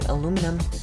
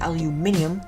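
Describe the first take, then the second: First: It is said with an American accent. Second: It is said with a British accent. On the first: "We say" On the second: "you say"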